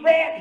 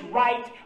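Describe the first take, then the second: First: The word is said with a short 'e' vowel. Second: The word is said with a full 'eye' vowel. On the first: "the way they said in Alabama, R-E-T" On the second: "R-I-G-H-T, That's the way we say it in Georgia"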